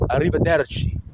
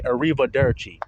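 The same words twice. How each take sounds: First: Arrivederci with rolled Italian R's; Italian pronunciation. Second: Arrivederci with American R's, no roll; Americanized pronunciation. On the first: Shown as a demonstration. Showing how he said it in class, un-Americanized arrivederci. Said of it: "I wasn't". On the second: Retold or imitated. Imitating classmates reading aloud in Italian, Americanized arrivederci. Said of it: "They're Americanizing it".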